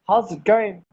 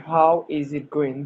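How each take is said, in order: First: The words are squeezed together quickly. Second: Each word is said fully and separately.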